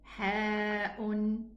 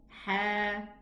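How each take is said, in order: First: It ends with a glottal stop and vowel. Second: It ends on an open vowel, no glottal stop. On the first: "There's a hamza in all these letters" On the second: "omitting the hamza"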